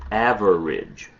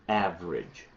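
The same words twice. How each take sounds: First: The word is said with three syllables. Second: The word is said with two syllables. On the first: "when you look in the dictionary, you will see" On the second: "You only need two syllables"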